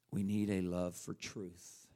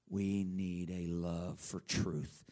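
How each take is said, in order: First: Slow, low declaration; solemn slow line; slow, low emphasis. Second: Very slow, low declaration; solemn drawn-out line; very slow emphasis. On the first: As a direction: lay it down slowly. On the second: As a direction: stretch every word out. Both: Shown as a demonstration.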